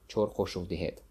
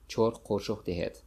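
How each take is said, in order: Both takes have the same delivery.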